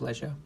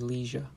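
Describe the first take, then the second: First: It is said with a British pronunciation. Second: It is said with an American pronunciation.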